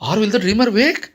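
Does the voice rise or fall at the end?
rise. It is said as a question, rising.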